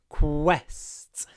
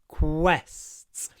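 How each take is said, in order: First: Said with the mouth open, giving a clear kw. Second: The same.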